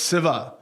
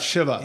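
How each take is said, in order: First: The name begins with a plain 's' sound. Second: The name begins with an 'sh' sound. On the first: This is how it is said where the family is from. "traditionally we don't say sha, we say sa. So it's Siva" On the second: This is how it is said elsewhere. "It's not Shiva"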